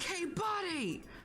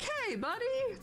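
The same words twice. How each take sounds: First: The greeting is said in a rude tone. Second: The greeting is said in a friendly tone. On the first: The customer is being disrespectful to the clerk. The speaker calls it wrong. "that would be rude" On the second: The customer is simply asking for help. The speaker calls it right. "then that's that's different"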